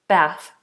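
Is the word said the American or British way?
American. It is said with an American vowel. "in American English, it would be bath"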